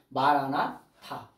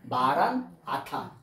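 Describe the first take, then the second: First: It is said as one unbroken word. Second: It is split into two parts after maran.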